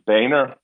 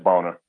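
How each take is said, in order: First: The first vowel sounds like 'bay'. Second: The first vowel sounds like 'bone'. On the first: This is how the name is actually said. "There was no A in his name" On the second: This is how the spelling suggests it is said. "The way it was spelled, B-O-E-H-N-E-R. Dude, that's Boehner"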